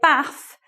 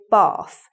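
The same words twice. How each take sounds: First: It is said in a northern English accent. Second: It is said in a southern English accent. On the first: "So you say bath" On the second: "we say bath"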